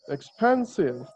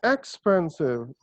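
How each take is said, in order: First: The stress is on the second syllable. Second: The stress is on the first syllable. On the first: The speaker calls it right. "Pen is being stressed" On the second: The speaker calls it wrong. "it is not expensive"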